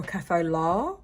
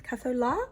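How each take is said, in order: First: Said in the usual way. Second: "Cafe au lait?" tried as a high questioning French "kafay oh lay"; "Cafe au lait?" asked high, doubting the French; unsure pronunciation. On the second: Shown as a demonstration. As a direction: test out "Cafe au lait?" with a rising, unsure tune. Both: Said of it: "don't know how to say it in an English accent".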